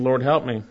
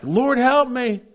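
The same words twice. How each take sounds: First: Said in the usual way. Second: "Lord, help me" cried out high and loud, stress on help; emphatic plea. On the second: Shown as a demonstration. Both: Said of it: "it's emphatic".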